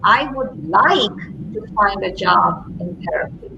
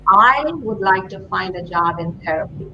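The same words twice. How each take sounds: First: The stress falls on the word like. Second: The stress falls on the word I. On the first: The focus is on the reason behind the wish. "what's behind the like?" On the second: The speaker owns the wish personally. "put the emphasis on the I"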